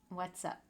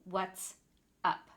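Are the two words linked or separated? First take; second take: linked; separated. First: The two words are joined into one. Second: The two words are said separately. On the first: The speaker calls it right. "We really combine the two words so the sounds between the words connect" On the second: The speaker calls it wrong. "I don't say "what's up.""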